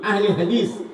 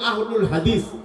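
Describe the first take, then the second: First: The first word ends with an 'e' sound. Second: The first word ends with an 'ul' sound. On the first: It follows the Urdu or Persian pattern. "Urdu অথবা ফার্সি প্যাটার্নে বা পদ্ধতিতে আমরা পড়ি" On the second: It follows the Arabic pattern. "আরবি ভাবে যদি আমরা উচ্চারণ করি"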